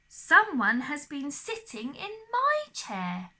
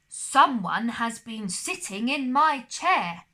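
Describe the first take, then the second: First: It is said in Mama Bear's middle-sized voice. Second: It is said in Papa Bear's big, deep voice.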